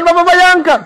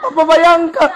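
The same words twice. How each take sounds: First: Pleading built up louder; the old woman's plea at its peak; urgent pleading. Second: A mild start of pleading; the old woman begins her plea. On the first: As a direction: push the plea harder on the last repeat. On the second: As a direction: ask him to imagine, still held back. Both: Retold or imitated. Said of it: "Mama tuh tambah gas".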